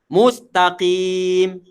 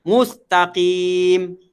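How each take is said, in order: Both takes have the same delivery.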